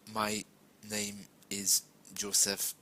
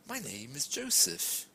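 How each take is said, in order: First: Each word is separated, flat and robotic. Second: The words run together with natural pitch. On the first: The speaker calls it wrong. "I sound like a robot" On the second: The speaker calls it right. "the spaces have been taken away"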